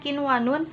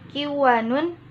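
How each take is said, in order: First: The n sound is pronounced clearly before w. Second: The n sound merges into the following w. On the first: The speaker calls it right. "harus dibaca kinwanun dengan terang atau izhar" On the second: The speaker calls it wrong. "tidak boleh dibaca kiwanun"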